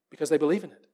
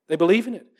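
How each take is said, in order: First: THEY said soft and low, the weight on they; Because THEY believe in it, hushed; stress on they. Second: "believe" gets the main weight; They BELIEVE in it, firm and even; stress on believe. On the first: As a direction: lean on "they" quietly. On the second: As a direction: press on "believe" in the repeat. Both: Real, not acted. Repeats the phrase, shifting stress.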